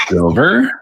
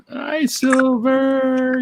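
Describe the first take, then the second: First: Said in the usual way. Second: High, slow drawn-out hello; sing-song greeting. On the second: Real, not acted.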